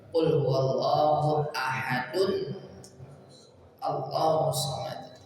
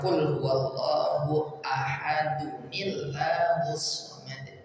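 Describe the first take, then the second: First: Each word ends separately, with no linking sound. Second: The words are joined with an added 'nil' sound.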